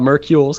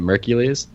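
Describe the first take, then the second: First: It does not sound like Hercules with M. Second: It sounds like Hercules starting with M. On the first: The speaker calls it wrong. "It's not Mercules" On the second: The speaker calls it right. "It's like Hercules, but with an M"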